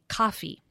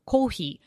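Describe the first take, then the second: First: A short English vowel before the double consonant. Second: Japanese loanword style, with a long vowel.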